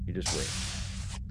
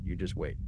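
First: Slow, breathy whispered promise; a slow hushed whisper of ambition. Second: Said in the usual way. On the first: Shown as a demonstration. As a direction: whisper it like a secret threat.

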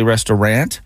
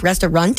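First: "restaurant" with a flat-A "rant" ending. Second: "restaurant" with a "runt" ending. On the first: Host asking if this is correct, "restaurant" as "resta-rant". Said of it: "Am I supposed to say". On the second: Co-host spelling out the ending, "restaurant" as "resta-runt". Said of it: "Runt, like R U N T at the end". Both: Shown as a demonstration.

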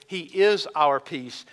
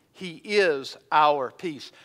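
First: Slow, is pressed; he IS our peace; stress on is. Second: Is held long and slow; he IS our peace; stress on is. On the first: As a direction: repeat with weight on is. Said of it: "He doesn't merely offer it". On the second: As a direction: lean on is deliberately. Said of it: "That doesn't mean he merely offers peace". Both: Shown as a demonstration.

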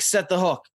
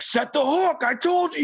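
First: Said in the usual way. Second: High, impatient mock of the gruff fishing mentor; imitating Skip. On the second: Mentor snapping at a boy who missed the hookset, higher mock voice. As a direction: bark it like a frustrated captain at a kid. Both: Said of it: "in his voice".

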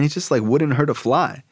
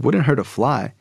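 First: Higher-pitched fond dad, acted; gushing praise. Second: Higher-pitched questioning repeat; incredulous echo. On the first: Dad praising Carl to his son, gushing. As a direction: vouch for him earnestly. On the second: Retold or imitated. Son doubting dad's praise of Carl, incredulous. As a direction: throw the phrase back as a doubting question. Son echoes dad in disbelief.

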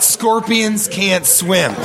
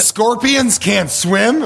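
First: Slow, falling "Scorpions can't swim." as if it's the lesson; mock realization. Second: Slow, rising "Scorpions can't swim?" with mock disbelief; surprised question. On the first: Co-host pretending this is the parable's moral, slow knowing fall. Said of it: "I was just like, "I get it". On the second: Co-host interrupting the parable, slow disbelieving rise. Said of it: "What if that was all I took from it".

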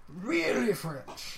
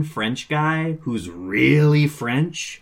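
First: Slow, stretched "Really French" in a put-on voice; playful echo of the joke; echoed emphasis. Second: Slow, stretched "really French" in a put-on voice; mock Gallic emphasis on "really French"; drawn-out emphasis. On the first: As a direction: repeat "Really French" with a drawn-out mock flourish. Echoing the co-host's joke. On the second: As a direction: lean on "really" and savour "French". Mocking the one French character.

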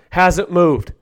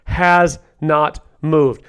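First: Said in the usual way. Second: HAS, NOT, MOVED slowly, each word set apart; emphatic restatement. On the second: Real, not acted.

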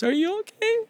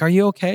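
First: Very high, quieter tearful squeak; bawling wife. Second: Said in the usual way. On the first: Retold or imitated. Crying wife asking after her injured husband, bawling. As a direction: imitate a sobbing wife, pitched way up. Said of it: "And she's bawling". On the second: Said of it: "I'm like".

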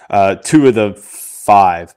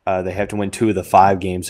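First: Two said slowly and loud with a falling tune; stress on two. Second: Said in the usual way. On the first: Real, not acted. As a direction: lean hard on two, slowly. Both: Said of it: "well, hold on, let's see".

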